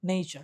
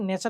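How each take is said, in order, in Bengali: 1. প্রথম স্বরধ্বনিটি 'ay'-এর মতো গ্লাইড করে। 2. প্রথম স্বরধ্বনিটি একটি ছোট, সাধারণ 'e'। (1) "আসলে নেইচার বলতে হয়" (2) "নেচারকে নেচার না"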